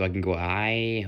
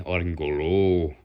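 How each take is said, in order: First: "high" lifted in pitch; going high. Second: "low" dropped in pitch; going low. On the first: Showing how vocal cords work, raising the pitch on "high". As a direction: lift the voice on "high". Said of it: "So I can go high". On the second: Showing how vocal cords work, lowering the pitch on "low". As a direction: drop the voice on "low". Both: Shown as a demonstration.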